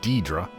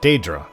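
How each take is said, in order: First: The word is said as 'Deidre'. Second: The word is said as 'Daedra'. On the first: The speaker calls it wrong. "not Deidre" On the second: The speaker calls it right. "it's Daedra"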